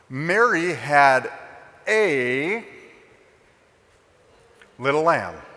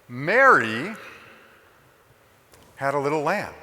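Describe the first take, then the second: First: The stress is on the word a. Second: The stress is on the word Mary.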